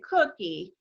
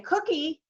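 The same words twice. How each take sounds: First: The pitch falls at the end. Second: The pitch rises at the end. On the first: "If they dropped it" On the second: "with a question mark sound"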